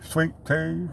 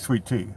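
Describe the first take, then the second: First: It is said in a southern American accent. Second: It is said in a plain, non-southern accent. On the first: The speaker calls it right. "You got to say sweet tea. ... It's a southern way of pronouncing it" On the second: The speaker calls it wrong. "You can't say sweet tea"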